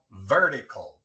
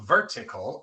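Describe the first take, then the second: First: The t sounds like a quick tapped r. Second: The t is a clear, hard t sound. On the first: The speaker calls it right. "sino vertical" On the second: The speaker calls it wrong. "No vertical"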